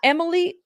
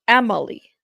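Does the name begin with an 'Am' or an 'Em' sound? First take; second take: Em; Am. First: The name begins with an 'Em' sound. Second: The name begins with an 'Am' sound. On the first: The speaker calls it wrong. "Not Emily" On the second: The speaker calls it right. "is pronounced Amalie"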